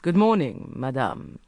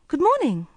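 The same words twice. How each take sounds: First: Smooth, mildly pleasant hello; courteous menace; pleasant greeting. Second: Bright, high, chirpy good morning; sunny hello; cheerful greeting. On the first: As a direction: greet her with false politeness. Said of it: "he said pleasantly". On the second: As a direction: greet her cheerfully from the stairs. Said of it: "said Court cheerfully". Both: A narrator's reading.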